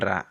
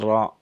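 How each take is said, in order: First: The vowel after r sounds open, like 'a'. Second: The vowel after r sounds dark, like 'o'. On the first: The speaker calls it wrong. "bukan ra" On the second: The speaker calls it right. "membaca dengan ra"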